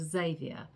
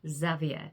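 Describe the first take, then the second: First: The name is said with an English pronunciation. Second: The name is said with a French pronunciation. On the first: "If they spoke in an English accent" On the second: "if they were going to use a French accent"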